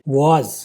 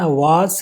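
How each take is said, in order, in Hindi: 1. शब्द z ध्वनि से समाप्त होता है। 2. शब्द s ध्वनि से समाप्त होता है। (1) "वाज ये ज की साउंड है, सिंपल ज" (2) "न वेस है न वास है"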